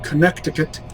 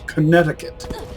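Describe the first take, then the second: First: The middle c is sounded as a k. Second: The middle c is silent. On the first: It follows the spelling. "why is it spelled Connecticut" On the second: It is the usual pronunciation. "if we pronounce it Connecticut"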